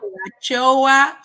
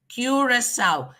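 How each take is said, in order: First: The second C is not sounded as S. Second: The second C is sounded as S. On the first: The speaker calls it wrong. "most of the time it's still pronounced wrongly" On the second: The speaker calls it right. "you have to pronounce that C as an S"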